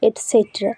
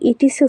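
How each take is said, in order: First: It is said as the full words et cetera. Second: It is read out as three separate letters. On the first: The speaker calls it right. "এটা উচ্চারণ হচ্ছে এটসেট্রা" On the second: The speaker calls it wrong. "এটাকে ইটিসি উচ্চারণ করবো না"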